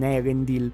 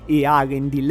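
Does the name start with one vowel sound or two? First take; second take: one; two. First: The name starts with a single vowel sound. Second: The name starts with two separate vowel sounds. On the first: The speaker calls it wrong. "e non Erendil" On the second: The speaker calls it right. "la pronuncia giusta di questo nome sarebbe Earendil"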